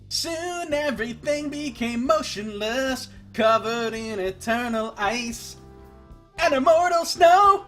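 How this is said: It is read in a grand, dramatic narrator style. "that's how I feel like I should be reading it to match the music"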